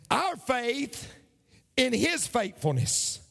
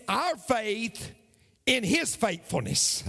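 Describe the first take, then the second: No difference in how they are said.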